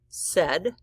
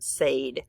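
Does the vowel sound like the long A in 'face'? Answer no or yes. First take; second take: no; yes. First: The vowel is not a long A sound. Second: The vowel is a long A sound. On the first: The speaker calls it right. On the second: The speaker calls it wrong.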